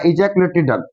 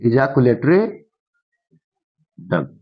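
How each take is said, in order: First: Said in the usual way. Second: Ejaculatory, a long gap, then a dropped duct; slow dictation. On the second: Shown as a demonstration. Teacher dictates term with pauses.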